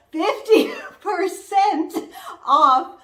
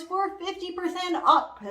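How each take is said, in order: First: Fifty percent said slow, higher and louder, off punched with a laugh; emphatic repeat. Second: Said in the usual way. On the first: Shown as a demonstration. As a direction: hammer the discount home.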